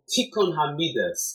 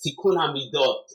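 First: The last word ends with an 'as' sound. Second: The last word ends with an 'ot' sound.

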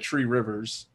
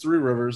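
First: The first word is said like 'tree'. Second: The first word is said like 'three'.

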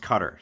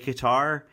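First: The name sounds like the word 'cutter'. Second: The name does not sound like 'cutter'. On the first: This is the more modern form, closer to the Arabic. "Cutter is pronounced cutter. See, I said it right this time" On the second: This is the older form. "I don't think it's wrong to say Qatar"

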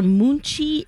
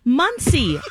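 First: The middle consonant is a 'ch' sound. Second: The middle consonant is an 's' sound. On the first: The speaker calls it wrong. "Have you guys heard of Munchie" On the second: The speaker calls it right. "No, Muncie"

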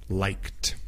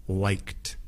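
Both takes have the same delivery.

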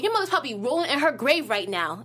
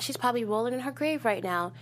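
First: It is said in a harsh, angry tone. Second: It is said in a calm, even tone. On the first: The point is made as an attack. The speaker calls it wrong. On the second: The point is made respectfully. The speaker calls it right.

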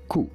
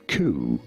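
First: It is said with a French accent. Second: It is said with an English accent. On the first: "In French, for reference, it is said as coup" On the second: "In English, therefore, it is said as coup"

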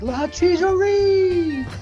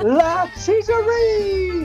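First: It is said at normal loudness. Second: It is said louder and prouder.

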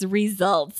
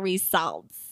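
First: The second syllable sounds like 'sult'. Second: The second syllable sounds like 'salt'. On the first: The speaker calls it right. "Yes, results" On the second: The speaker calls it wrong. "not results"

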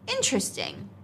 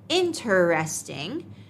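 First: One syllable of the word is skipped. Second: Every syllable of the word is pronounced. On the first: "natives usually say interesting, skipping a syllable" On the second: "L2 non-native English speakers often pronounce interesting as interesting"

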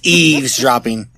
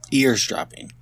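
First: The word is said as 'eavesdropping'. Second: The word is said as 'eardropping'. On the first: The speaker calls it right. "It's eavesdropping" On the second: The speaker calls it wrong.

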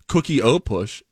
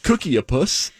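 First: The middle vowel is an 'o' sound. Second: The middle vowel is an 'a' sound. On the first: The speaker calls it right. "It's -o" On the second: The speaker calls it wrong. "not cookie-a-puss"

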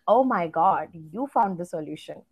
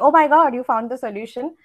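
First: It is said in a mocking, sarcastic tone. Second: It is said in a plain, sincere tone.

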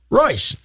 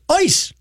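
First: The name begins with a clear R sound. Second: The name begins without any R sound. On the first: "the river is pronounced Royce" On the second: "when you do the German pronunciation, it's Ois"

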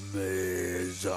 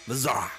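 First: It is said very slowly. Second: It is said at normal speed.

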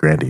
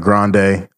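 First: The last syllable sounds like 'dee'. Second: The last syllable sounds like 'day'. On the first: The speaker calls it right. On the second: The speaker calls it wrong.

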